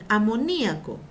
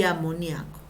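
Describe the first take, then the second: First: "amoníaco" stressed on NI, a-mo-NÍ-a-co. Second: "amoníaco" said a-mo-NIA-co, gliding onto the A; stress on NIA. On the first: Teacher introducing first accepted form, "amoníaco" as a-mo-NÍ-a-co. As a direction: hold the I apart in "amoníaco". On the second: Teacher giving second accepted form, "amoníaco" as a-mo-NIA-co. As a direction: lower "amoníaco", with NIA as one stressed syllable. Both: Shown as a demonstration. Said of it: "Seguimos con la doble acentuación".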